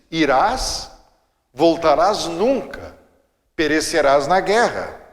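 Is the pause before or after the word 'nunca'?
after. The pause comes after nunca.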